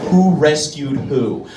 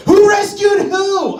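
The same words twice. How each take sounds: First: Said in the usual way. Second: High, slow, loud reading of the sign; 1 high mock shout. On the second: Shown as a demonstration. Comic reading a bumper sticker, mock shouting it. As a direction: yell the bumper sticker like a slogan.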